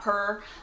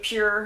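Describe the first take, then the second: First: It sounds like 'purr', with no y-glide. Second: It sounds like 'pure', with a y-glide. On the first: The speaker calls it wrong. "not Purr" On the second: The speaker calls it right. "I believe that's the pr pronunciation, Pure"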